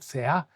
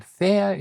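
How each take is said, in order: First: "Thea" stressed on the final A; stress on last syllable. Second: "thea" stressed on THE, the first syllable. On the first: Teacher warning learners of the word for goddess, final stress on "Thea". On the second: Teacher telling learners the word for view, first-syllable stress on "thea". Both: Shown as a demonstration. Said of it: "it's where you put the tone".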